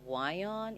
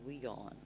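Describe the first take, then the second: First: The name begins with a sound like "why". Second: The name begins with a sound like "we". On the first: This is the speaker's own preferred pronunciation. "it should be Wyon" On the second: This is the network's own pronunciation. "they pronounce it as Weon"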